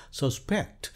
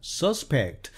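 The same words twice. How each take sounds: First: Suspect stressed on SPECT, the verb, ending in a rise; stress on second syllable. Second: Suspect stressed on SUS, the noun; stress on first syllable. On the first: Teacher showing suspect as a verb with stress on SPECT. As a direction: put the weight on the last syllable, sus-PECT. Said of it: "이음절에 강세를 두게 되면은". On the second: Teacher showing suspect as a noun with stress on SUS. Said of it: "이름절에 강세를 두고". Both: Shown as a demonstration.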